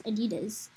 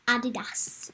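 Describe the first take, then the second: First: Adidas as uh-DEE-duz; Adidas, stressed on DEE, ending in "duz"; alternate pronunciation. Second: Adidas as AH-dee-dass; Adidas, front-stressed, ending in "dass"; alternate pronunciation. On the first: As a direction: say Adidas with a weak first vowel and a z ending. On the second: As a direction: say Adidas with an open first "ah" and a hissed final s. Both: Shown as a demonstration. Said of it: "However you say it".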